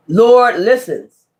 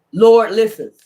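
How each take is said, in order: First: "Lord listens" stretched out slowly with "Lord" leaned on; slow, weighty "Lord listens"; slow emphatic Lord listens. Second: Said in the usual way. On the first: Shown as a demonstration. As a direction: drag out "Lord listens", hitting "Lord".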